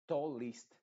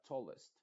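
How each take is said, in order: First: Tallest with a clear Spanish I, louder. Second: Tallest with a dull, swallowed E; muffled vowel. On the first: Teacher shows the wrong tallest. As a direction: say tallest with a bright I. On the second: Teacher models the right tallest. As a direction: say tallest with a half-closed vowel. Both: Shown as a demonstration. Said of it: "sino que es muy apagada".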